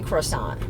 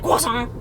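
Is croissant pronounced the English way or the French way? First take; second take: English; French. First: The word is pronounced the plain English way. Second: The word is pronounced the French way. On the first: It is the normal everyday American way. "I think in America people can say croissant" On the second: The speaker is showing off. "if you want to be extra, I think you should say croissant"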